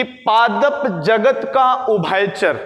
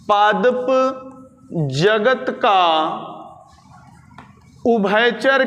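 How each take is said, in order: First: Said in the usual way. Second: Word by word with long pauses; slow dictation. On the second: Shown as a demonstration. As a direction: dictate it piece by piece for note-takers. Repeats phrase slowly for note-taking. (धीरे-धीरे, रुक-रुक कर लिखवाते हुए)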